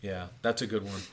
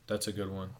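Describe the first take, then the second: First: Said in the usual way. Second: Whispered echo, voice dropped away. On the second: Real, not acted. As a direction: murmur the same praise again under the breath. Repeats line, then whispers it.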